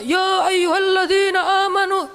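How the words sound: It is recited in a loud shouting voice.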